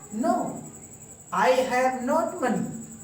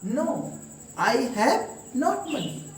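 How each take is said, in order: The two takes are said the same way.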